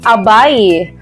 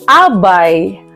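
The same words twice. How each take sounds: First: The stress falls on the last syllable. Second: The stress falls on the second-to-last syllable. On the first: Lying or sitting close beside each other. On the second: A main attendant of a couple at their wedding.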